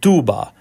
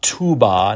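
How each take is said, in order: First: The T is soft and dental, like a D. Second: The T is crisp and sharply released. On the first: The speaker calls it right. "a dental T" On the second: The speaker calls it wrong. "not a crisp T"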